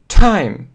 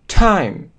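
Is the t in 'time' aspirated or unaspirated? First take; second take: aspirated; aspirated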